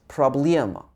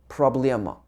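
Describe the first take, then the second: The two takes are said the same way.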